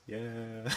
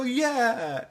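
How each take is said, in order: First: Very soft, deflated mock cheer; half-hearted little imitation of a cheer; feeble cheer. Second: High, drawn-out mock cheer; high-pitched imitation of a rallying cry; group cheer. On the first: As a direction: join in weakly, far softer. And Sakura goes. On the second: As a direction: cheer along with the whole gang. Everybody go.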